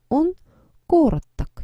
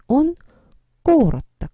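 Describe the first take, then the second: No difference in how they are said.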